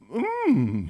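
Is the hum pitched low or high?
low. The hum is at a normal, lower pitch.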